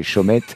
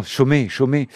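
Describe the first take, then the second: First: Chaumette, ending in an audible "ette"; T sounded at the end. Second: Chaumet, pronounced "sho-may", a little higher; silent final T. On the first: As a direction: say Chaumette with a clearly sounded final T. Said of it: "ça va pas se prononcer comme ça". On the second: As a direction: say Chaumet ending on an open vowel, no T. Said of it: "ça se prononce comme ça? Non". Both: Real, not acted.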